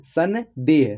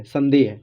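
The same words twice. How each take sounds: First: "सन", short pause, then "देह"; broken into syllables. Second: Said in the usual way. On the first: Shown as a demonstration. Teacher showing learners how the word divides, "सन" apart from "देह". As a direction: sound out "सन" and "देह" separately. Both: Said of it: "ऐसे हो रहा है ना".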